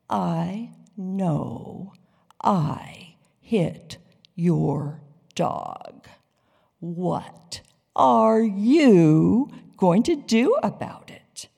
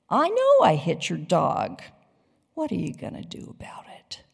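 First: It is said slowly and deliberately. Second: It is said at a normal, casual pace.

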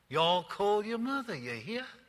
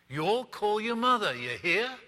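First: It is said in a Southern American accent. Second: It is said in a neutral, unmarked accent.

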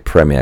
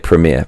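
First: It is said with a British pronunciation. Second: It is said with an American pronunciation. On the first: "I'm going to say premiere because I'm British" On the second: "you Americans say premiere"

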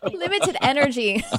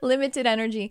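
First: It is spoken with a Texas accent. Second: It is spoken in a put-on neutral accent. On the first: "That's my Texas accent coming out" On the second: "this is my fake accent"

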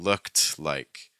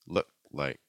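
First: The d at the end of looked is pronounced. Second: The d at the end of looked is dropped. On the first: "instead of saying looked like" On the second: "a lot of times what we'll get is look like"

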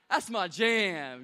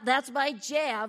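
First: It is said in a cool street-style voice. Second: It is said in a nerdy put-on voice.

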